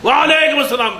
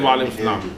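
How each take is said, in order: First: It is screamed loudly. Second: It is said quietly.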